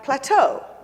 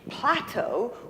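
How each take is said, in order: First: The stress is on the second syllable. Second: The stress is on the first syllable. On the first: "the accent is on the, the second syllable, not the first syllables" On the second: "Instead of plateau"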